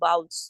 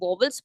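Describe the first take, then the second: First: The middle w sound is left silent. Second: The middle w sound is clearly heard. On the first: The speaker calls it right. "इसे हम अक्सर silent रखते हैं" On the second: The speaker calls it wrong. "कुछ लोग vowels पढ़ते हैं"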